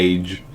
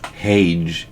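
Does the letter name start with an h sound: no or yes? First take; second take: no; yes. First: The letter name starts with a vowel sound. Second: The letter name starts with an h sound.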